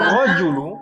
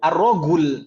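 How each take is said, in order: First: The middle consonant is a J sound. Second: The middle consonant is a hard G sound.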